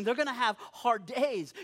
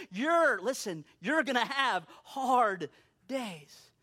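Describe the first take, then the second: First: Said in the usual way. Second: You're drawn out and pitched up, line slowed; slow right down, leaning on "You're"; stress on You're. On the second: Real, not acted. Preacher turning it on the listeners, stress on "You're". Turns same words on listeners.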